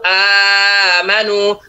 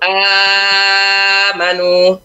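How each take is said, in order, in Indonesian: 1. Vokal panjang ditahan selama empat ketukan. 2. Vokal panjang ditahan selama enam ketukan.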